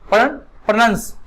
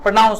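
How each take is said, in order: First: The vowel after 'pro' sounds like short 'uh'. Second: The vowel after 'pro' sounds like 'ow'. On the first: The speaker calls it wrong. "ना कि प्रोनंस" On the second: The speaker calls it right. "प्रोनाउंस का सही उच्चारण क्या होगा?"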